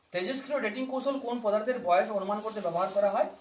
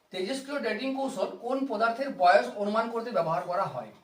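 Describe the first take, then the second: No difference in how they are said.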